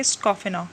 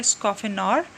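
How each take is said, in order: First: स्कॉफेनर ending on an open vowel; silent final R. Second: स्कॉफेनर with the closing R sounded; final R pronounced. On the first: Teacher contrasting two readings for students, स्कॉफेनर with silent final R. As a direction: drop the R at the end of स्कॉफेनर. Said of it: "तो आर यहाँ silent निकलेगा". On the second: Teacher giving the other reading to students, स्कॉफेनर with audible final R. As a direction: let the R be heard at the end of स्कॉफेनर. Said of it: "आर जो है वो silent नहीं दिखाई देगा". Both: Shown as a demonstration.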